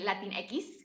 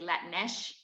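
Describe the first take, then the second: First: The word ends with an 'eks' sound. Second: The word ends with an 'esh' sound. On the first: This is the academic English form. The speaker calls it wrong. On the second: This is how Spanish speakers say it. The speaker calls it right. "so we just say Latinesh"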